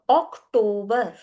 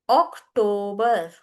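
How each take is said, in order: No difference in how they are said.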